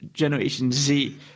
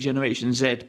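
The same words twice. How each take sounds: First: The letter Z is said the American way. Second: The letter Z is said the British way. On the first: "I'll use the American term- terminology here" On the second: "Brits would say correctly"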